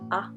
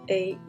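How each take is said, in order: First: The letter's short vowel sound is said. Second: The letter's long vowel sound is said. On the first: "The short sounds are" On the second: "the long sounds"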